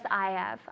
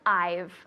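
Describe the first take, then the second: First: It is said in full as two words. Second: It is contracted to one short syllable. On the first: "It's really co- common and normal to say" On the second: "you really want to contract that"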